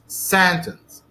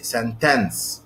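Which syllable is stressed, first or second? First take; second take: first; second. First: The stress is on the first syllable. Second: The stress is on the second syllable. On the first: The speaker calls it right. "the stress is on the first syllable" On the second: The speaker calls it wrong. "you place the stress on the second syllable instead of the first"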